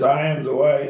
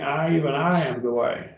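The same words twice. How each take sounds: First: Said in the usual way. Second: "I, even I" set apart as the emphatic subject; emphatic doubled I. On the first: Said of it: "we miss it when we quote it that way". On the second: Shown as a demonstration. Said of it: "Because it's really emphatic".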